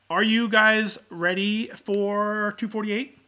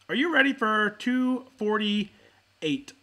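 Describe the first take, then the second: First: Slow, drawn-out, louder hype question; hype call. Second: Slow, drawn-out emcee question; hype call. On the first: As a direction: stretch it out like an emcee. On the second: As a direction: stretch it out like a show host. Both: Real, not acted. Opening call for the episode.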